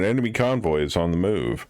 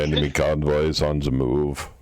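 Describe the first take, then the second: First: It is read in the speaker's natural voice. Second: It is read in a put-on character voice.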